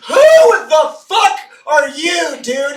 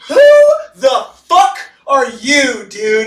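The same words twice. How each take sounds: First: High, loud, slow shouted challenge; hammed-up angry manager shouting; mock manager yell. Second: High, slow shouted challenge; hammed-up angry cop shouting; mock cop yell. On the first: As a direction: yell it like a startled boss. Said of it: "the shift manager comes out and goes". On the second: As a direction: bark it like a startled cop. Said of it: "the L A P D pops out and goes".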